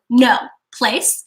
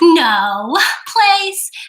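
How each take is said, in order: First: The command is said in a firm, stern tone. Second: The command is said in a soft, sweet tone. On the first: The speaker is upset about this. The speaker calls it right. "I want to have a firm tone" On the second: It acts as a reward. The speaker calls it wrong. "that my tone right there is, is a, a reward. It's a treat. It's sweet"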